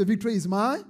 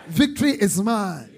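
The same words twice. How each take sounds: First: Said in the usual way. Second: Loud, triumphant proclamation; shouted declaration. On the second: Shown as a demonstration. Preacher has congregation shout aloud, loud and triumphant. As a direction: shout it aloud, landing firmly. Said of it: "Shout it aloud".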